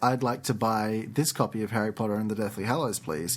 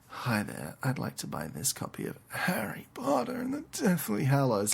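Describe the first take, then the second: First: It is said in a plain, ordinary tone. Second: It is said in a seductive, flirty tone.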